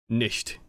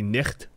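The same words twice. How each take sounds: First: The word is pronounced with a German accent. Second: The word is pronounced with a Dutch accent. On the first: "not to like nicht" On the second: "the Dutch pronunciation or the Dutch way you pronounce something spelled like that would be"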